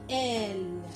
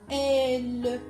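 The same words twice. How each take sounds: First: The final e is left silent. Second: The final e is pronounced aloud. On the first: The speaker calls it right. "on dit elle" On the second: The speaker calls it wrong. "On ne dit pas elle"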